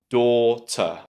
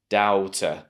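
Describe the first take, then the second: First: The first syllable sounds like 'door'. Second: The first syllable has an 'ow' vowel. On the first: The speaker calls it right. "think about that first syllable as door" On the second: The speaker calls it wrong. "try to squeeze those two vowel sounds together and say something like ow"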